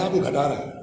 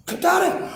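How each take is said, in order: First: Said in the usual way. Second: گھٹا رہے ہیں thrown up much higher, rising on رہے; mock incredulous echo, much higher; high exclamation. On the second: Shown as a demonstration.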